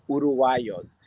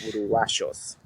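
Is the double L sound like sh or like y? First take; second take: y; sh. First: The double L sounds like a y. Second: The double L sounds like sh. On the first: "Mexican Spanish, which would be Uruguayos" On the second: "they pronounce the double L like a sh sound"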